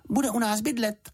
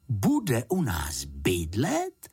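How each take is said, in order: First: Announced. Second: Said in the usual way. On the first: A narrator's reading. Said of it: "oznámila Juditka".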